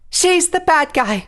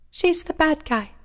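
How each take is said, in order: First: It is said loudly. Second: It is said softly.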